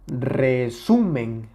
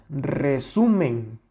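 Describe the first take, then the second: Both takes have the same delivery.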